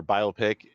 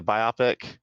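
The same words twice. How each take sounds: First: "biopic" said the other, disfavoured way, as bi-OP-ic; alternative pronunciation. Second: Said in the usual way. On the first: Shown as a demonstration. Podcaster jokingly offers the rejected pronunciation, "biopic" as bi-OP-ic. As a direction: say "biopic" to rhyme with myopic. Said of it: "if you say it like that". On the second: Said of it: "It's biopic".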